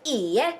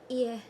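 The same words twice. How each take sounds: First: It is said boldly and firmly. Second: It is said nervously and hesitantly.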